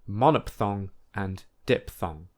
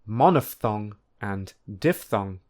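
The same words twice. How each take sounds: First: The 'ph' is said as a p sound. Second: The 'ph' is said as an f sound. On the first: The speaker calls it wrong. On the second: The speaker calls it right. "the correct pronunciation is"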